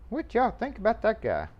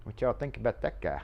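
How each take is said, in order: First: Asked again, higher and playful; higher repeat. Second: Said in the usual way. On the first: Real, not acted. Asking the viewers again about the mail guy, higher and playful. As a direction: pitch it up, teasing the viewers.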